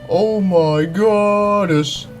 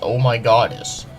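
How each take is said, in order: First: It is said in an exaggerated, put-on dramatic voice. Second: It is said in a plain, ordinary voice.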